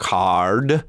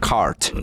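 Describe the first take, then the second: First: "card" long with a voiced D; voiced ending. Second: "cart" shorter with a crisp T; voiceless ending. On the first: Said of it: "ty znělý souhlásky máme na konci". (dlouhé „card“ se znělým D) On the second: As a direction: cut "cart" off on a T. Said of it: "A jsou úplně jiný". (kratší „cart“ s neznělým T) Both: Shown as a demonstration.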